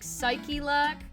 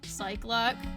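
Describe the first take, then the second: First: It is said as three syllables, psy-che-lac. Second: It is said as two syllables, cy-clock. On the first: This is probably the proper way to say it. "it's very much pronounced like Psyche-lac" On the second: This is how the speaker first read it. "I read it as like Cyclock"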